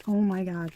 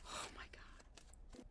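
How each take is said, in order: First: Said in the usual way. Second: Whisper. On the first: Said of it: "repeats exclamation". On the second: Real, not acted. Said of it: "repeats exclamation whispered".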